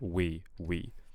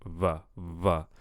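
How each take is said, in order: First: The word starts with a rounded w sound. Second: The word starts with a buzzing v sound. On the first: The speaker calls it right. "instead of we we" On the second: The speaker calls it wrong. "right now I'm kind of hearing va va"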